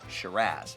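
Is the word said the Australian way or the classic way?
Australian. It is said the Australian way. "in Australia, they say Shiraz"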